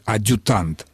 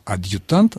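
First: The u follows the d with no y sound. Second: A distinct y sound comes before the u. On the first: The speaker calls it wrong. "чтобы читалось не «адъютант»" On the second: The speaker calls it right. "а «адъютант», нам нужен разделительный знак"

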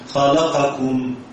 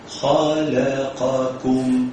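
First: A vowel on the qaf or kaf is clipped. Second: Every short vowel is given its full length. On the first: The speaker calls it wrong. "تجد القاف او الكاف اختلست" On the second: The speaker calls it right. "اسمع كده كل حرف"

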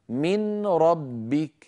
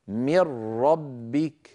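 First: The n is pronounced before a single r. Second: The n vanishes into a doubled r. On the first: "كان النطق قبل الإدغام من ربك" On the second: "بعد الإدغام صار النطق هكذا"

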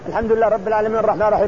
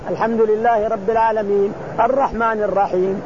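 First: The verses are rushed together without any break. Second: The verses follow each other with only brief breaks. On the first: This does not count as proper reading. The speaker calls it wrong. "ما تسمى قراءة هذه" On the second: The reciter is in a hurry or wants a flowing sound. The speaker calls it right. "وإن شئت أن تتلوها متتابعة"

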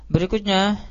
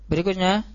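No difference in how they are said.

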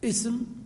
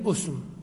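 First: The word begins with an i vowel. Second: The word begins with a u vowel. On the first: This is the more common form. "جاز لك فيه الكسر وهو الأكثر" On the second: This is the rarer form. "والضم وهو قليل"

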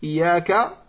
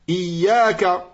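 First: The 'y' sound is short and single. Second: The 'y' sound is held long and doubled. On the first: The speaker calls it wrong. "avec une fatha sur l'ia et non pas une shadda" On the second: The speaker calls it right. "Ce qu'il faut dire"

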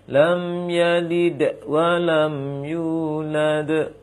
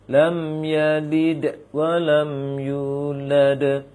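The two takes are said the same way.

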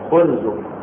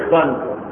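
First: The first vowel is u. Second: The first vowel is i. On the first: "هذه كسر وضم وفتح" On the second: "هذه كسر وضم وفتح"

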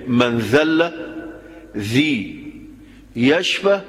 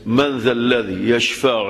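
First: The phrase breaks with a pause after the second word. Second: The phrase runs on smoothly without a break. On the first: Whoever humbles himself is healed. The speaker calls it wrong. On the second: Who can intercede with God except by His permission? The speaker calls it right.

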